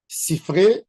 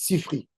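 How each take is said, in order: First: The word ends with an 'ay' sound. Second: The word ends with an 'ee' sound. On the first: The speaker calls it right. "c'est au pluriel" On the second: The speaker calls it wrong. "les Ashkénazes, ils ne savent pas prononcer. Ils disent Sifri. C'est une erreur"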